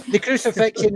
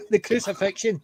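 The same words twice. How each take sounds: First: Said in the usual way. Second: Laughing through the word. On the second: Real, not acted. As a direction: says it while laughing.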